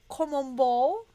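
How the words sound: It is said with a French accent.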